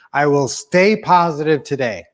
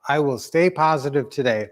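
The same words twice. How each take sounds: First: Spoken affirmation. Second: Said in the usual way. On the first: Shown as a demonstration. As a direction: lead the group, leaning on "stay". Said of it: "One, two, three". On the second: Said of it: "Let's do that one".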